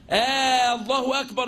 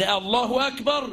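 First: Drawn آه giving الله أكبر a question sound; questioning long hamza. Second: Said in the usual way. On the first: Shown as a demonstration. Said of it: "يبقى ده استفهام". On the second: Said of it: "الله أكبر ده إنشاء".

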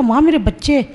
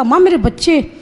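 First: Said in the usual way. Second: Calling out "माँ मेरे बच्चे" a bit louder and higher; louder call to mother. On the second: Retold or imitated. ("माँ मेरे बच्चे" थोड़ा ज़ोर से पुकारते हुए) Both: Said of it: "फिर मैंने ज़ोर से कहा".

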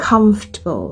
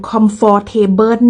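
First: "comfortable" squeezed to CUMF-tuh-bul; "comfortable" with the "or" dropped, falling after COMF; first-syllable stress. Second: "comfortable" sounded in full, com-fort-TAY-bern; "comfortable" with Thai-style full vowels. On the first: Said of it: "พยางค์แรก". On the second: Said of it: "บ่แม่น comfortable เ". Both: Shown as a demonstration.

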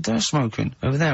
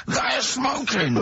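First: Said in the usual way. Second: Very high, drawn-out mock protest; retold complaint, slow and high-pitched; exasperated complaint. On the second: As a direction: stretch each word in exaggerated indignation. Retold row, exasperated repeat.

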